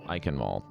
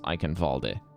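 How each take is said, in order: First: The name ends on a consonant sound. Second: The name ends with an added vowel sound.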